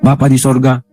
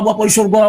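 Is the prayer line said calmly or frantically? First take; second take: calmly; frantically. First: It is said calmly, politely and reverently. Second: It is said wildly and frantically, with exclamations. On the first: The prayer is offered with humble respect. The speaker calls it right. "Itu doa yang diucapkan dengan santun, sopan, dan tunduk" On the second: The prayer is offered in a frenzied, possessed manner. The speaker calls it wrong. "seperti kerasukan setan"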